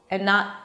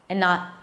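Both takes have the same delivery.

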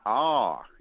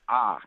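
First: The vowel glides into another sound. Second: The vowel stays steady without gliding. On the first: The speaker calls it wrong. "It's not ah. It doesn't glide" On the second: The speaker calls it right. "the vowel sounds are flat. So A is ah"

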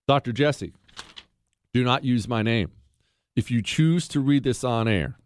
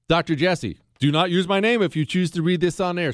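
First: There is a sentence break after "my name". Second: It is read as one sentence without a break.

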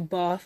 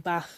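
First: Bath has a long, broad southern English vowel. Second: Bath has a short, flat vowel like classmates'.

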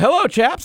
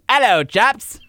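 First: It is said in a plain American accent. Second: It is said in a put-on British accent.

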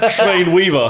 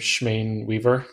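First: It is said in a New York accent. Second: It is said in the speaker's plain accent.

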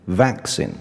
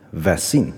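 First: The stress is on the first syllable. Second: The stress is on the second syllable. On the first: The speaker calls it right. "重音放在前面，变成vaccine" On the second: The speaker calls it wrong. "学生往往会念成vaccine"

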